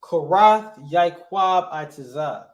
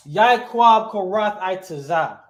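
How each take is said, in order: First: Korath first, then Yaakov, then Itazah, slow and firm; measured, slightly louder right-order example; correct word order. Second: Yaakov first, then Korath, then Itazah, slow and loud; emphatic, slow wrong-order example; wrong word order. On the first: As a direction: slowly model the verb-first order. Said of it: "I would say it like this". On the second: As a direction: slowly spell out the mistaken order, name first. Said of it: "I would not say it like that". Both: Shown as a demonstration.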